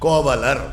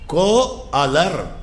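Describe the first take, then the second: First: The parts are joined by a linking v sound. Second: The two parts are said as separate words.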